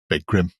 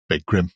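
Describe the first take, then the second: First: The name is said as two clean syllables. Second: The name is said as two clean syllables.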